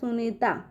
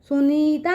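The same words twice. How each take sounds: First: The vowel after the n is short. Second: The vowel after the n is long. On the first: The speaker calls it right. "न पे छोटी की मात्रा का उच्चारण निकल के आ रहा है" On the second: The speaker calls it wrong. "सुनीता नहीं पढ़ रहे हैं"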